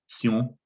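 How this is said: The suffix is said with a French pronunciation. "It's pronounced in French"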